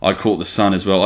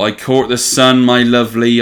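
First: Said in the usual way. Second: Higher, louder mock Cornish with a rolled r; hammed-up West Country accent. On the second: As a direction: play the proud local, Cornish accent. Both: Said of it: "I'm like a proper Cornishman".

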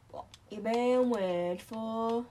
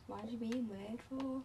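First: Slow, louder teasing drawl. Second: Said in the usual way. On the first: Real, not acted. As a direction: drag it out to tease. Repeats question slower, louder.

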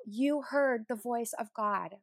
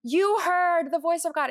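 First: HEARD drawn out slowly, at near-usual volume; slow, measured retelling of a friend's amazement, weight on "heard"; awed emphasis. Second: High, loud, drawn-out "You heard"; excited mock yell, starting high on "You heard" and falling; celebrating scream, retold. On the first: Retold or imitated. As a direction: imitate an awed friend, stretching "you heard the voice of God". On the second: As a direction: imitate a friend exclaiming in celebration. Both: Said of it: "She just screamed and celebrated".

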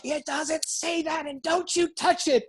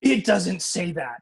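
First: Imitated angry mom. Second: Drawn-out, mildly indignant retort; slowly insist, with stress on the first word; firm denial. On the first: Mother guarding her scriptures from her son, imitated seething anger. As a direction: mimic a mother seething in a much higher voice. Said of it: "volcano of anger". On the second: Retold or imitated. Mother contradicting her son about scripture, firm denial. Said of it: "so she says to me".

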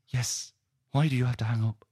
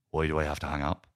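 First: Put-on high-pitched girlfriend voice; insistent Chloe. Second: Subdued questioning reply in own register; understated Ray. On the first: Girlfriend pressing him for an answer on the phone, high and insistent. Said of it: "And she goes". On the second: Acted. Man on the phone echoing his upset girlfriend, subdued question. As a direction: echo the question back evenly. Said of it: "And Ray goes".

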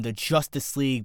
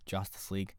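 First: Said in the usual way. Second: "Justice" said quietly as "Joss-tice"; low, soft "Justice" turned into "Joss-tice"; punning pronunciation. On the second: Shown as a demonstration. Host explaining his pun, "Justice" said as "Joss-tice". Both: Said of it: "Jo-, Joss Whedon".

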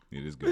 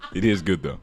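First: High pitched laughing through the words; cracking up mid sentence. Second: Said in the usual way. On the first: Real, not acted. Laughing hard.

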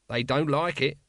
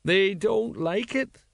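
First: Said in the usual way. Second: High, slow, plaintive echo; mournful agreement. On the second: A narrator's reading. Tipsy sergeant agreeing with his mate, mournful. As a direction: draw it out high and woeful. Colon mournfully echoes Nobby.

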